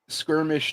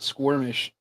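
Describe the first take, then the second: First: The word begins with a plain 'sk' sound. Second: The word begins with a 'skw' sound. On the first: The speaker calls it right. "skirmish, not squirmish" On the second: The speaker calls it wrong. "not squirmish"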